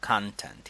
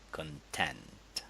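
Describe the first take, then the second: First: The stress is on the first syllable. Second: The stress is on the second syllable. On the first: It is used as a noun. "the stress in nouns is on the first syllable" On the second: It is used as a verb. "if we have a verb, you would say content"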